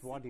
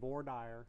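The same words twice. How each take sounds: First: It is said with a French pronunciation. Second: It is said with an anglicized pronunciation. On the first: The speaker calls it right. "it's voir dire is the correct right. French pronunciation" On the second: The speaker calls it wrong. "A lot of lawyers, including some of my law professors from the Old South, will say"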